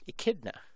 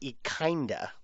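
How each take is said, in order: First: The n sound comes after the d sound. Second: The n sound comes before the d sound. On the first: The speaker calls it right. "echidna is the correct pronunciation" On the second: The speaker calls it wrong. "I thought it would might be echinda, like echinoderm"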